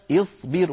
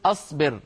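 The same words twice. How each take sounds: First: اصبر said as isbir, opening with kasra; correct kasra start. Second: أصبر said as asbar, wrongly opening with a; wrong fatha start. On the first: Teacher contrasts right and wrong اصبر, the correct form. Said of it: "فنبدأ اصبر". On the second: Teacher contrasts right and wrong اصبر, the wrong form. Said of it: "ولا نقول أصبر". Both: Shown as a demonstration.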